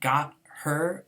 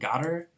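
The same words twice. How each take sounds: First: Both words are said fully and separately. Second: The words are run together in reduced form.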